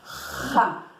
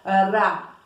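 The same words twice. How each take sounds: First: The r is a rough sound in the throat. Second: The r is a quick tap of the tongue. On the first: "Quando nós temos dois R's entre duas vogais, o som é" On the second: "Quando nós temos um R entre duas vogais, o som, a língua dá aquela puladinha"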